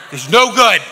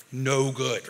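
First: "It's no good" punched high and loud; loud mock scolding. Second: Said in the usual way. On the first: Playing the flesh, scolds the volunteer loudly. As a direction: bark "no" up top.

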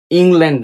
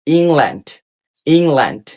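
First: "ইংল্যান্ড" with an e in the last syllable, ing-lend; wrong pronunciation. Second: "ইংল্যান্ড" with long ee and open land; correct pronunciation. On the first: Teacher rejects a mistake, "ইংল্যান্ড" said as ing-lend. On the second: Teacher gives the E example, "ইংল্যান্ড" as eeng-land. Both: Shown as a demonstration. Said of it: "ইংল্যান্ড না".

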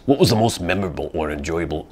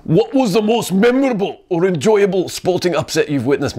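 First: A faint, bad Scottish accent on "What was the most memorable or enjoyable"; horrible Scottish accent. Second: Higher, louder hammed-up Scottish accent on "What was the most memorable or enjoyable". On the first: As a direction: start the question in a weak Scottish accent. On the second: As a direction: go big with the bad Scottish accent. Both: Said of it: "I'm doing a horrible accent right now".

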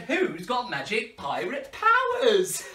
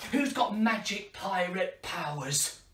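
First: Slow, louder, laughing repeat. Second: Said in the usual way. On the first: Shown as a demonstration. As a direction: ask again, pushing them to answer. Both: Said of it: "I said".

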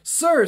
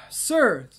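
First: Much higher, loud character voice; eager follower. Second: Slightly raised character voice; tentative character take. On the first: Hound-faced follower hurries up to the priest, high loud voice. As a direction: pipe up high and loud to get his attention. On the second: Unknown follower addresses the priest, moderately raised character voice. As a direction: address him in a somewhat higher, louder voice. First try at unidentified speaker's voice. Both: Acted.

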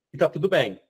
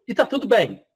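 First: Said in the usual way. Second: Higher, light reassurance on "tá"; reassuring. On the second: Shown as a demonstration. Teacher calming anxious students, higher reassuring tone. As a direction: lift "tá" gently to comfort the class.

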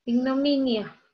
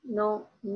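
First: Said in the usual way. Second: Ignominia in separate syllables with pauses, MI stressed. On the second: Shown as a demonstration. Teacher locating the strong syllable, halting syllables with stressed MI in Ignominia. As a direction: break up Ignominia, weight on MI. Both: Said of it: "Aquí en la sílaba mi".

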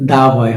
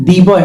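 First: Lower-pitched দা boy, দা as open "daa"; "thuh" before consonant. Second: দি boy with দি rhyming with see; "thee" alternative. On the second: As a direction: say দি in দি boy as "dee". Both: Shown as a demonstration. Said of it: "এটা কি consonant sound".

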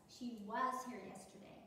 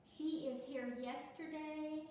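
First: Said in the usual way. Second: Slow, deliberate read, leaning on she; slow read of the mistake. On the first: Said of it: "you have to change is to was". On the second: Shown as a demonstration. Teacher rereading the uncorrected sentence for the class, slow and deliberate. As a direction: read the wrong sentence out slowly so they hear the error. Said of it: "Doesn't make sense, does it?".

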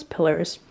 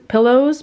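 First: "pillars" for pillows, ending in "ers"; "pillars" tossed off lower and softer, with an "er" ending; casual pronunciation. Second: "pillows" said carefully with a clear "oh" ending; "pillows" with a distinct, rounded last syllable; careful pronunciation. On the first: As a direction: drop to a low, soft "pillars". Reverts to own way of saying pillows. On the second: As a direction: correct yourself to "pillows", ending in a full "oh". Corrects own saying of pillows. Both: Shown as a demonstration.

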